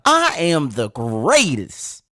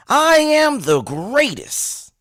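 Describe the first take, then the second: First: Slow champion's boast, closer to normal pitch; drawn-out proclamation swooping up then falling; Muhammad Ali. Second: High, drawn-out boxer's boast; Muhammad Ali. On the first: Host urging listeners to try harder, slow boastful champion voice. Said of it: "You can do a little better than that". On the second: Host modelling a shout for listeners, boastful champion voice. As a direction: proclaim it slowly, stretching the opening word high. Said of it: "in your best Muhammad Ali voice". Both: Acted.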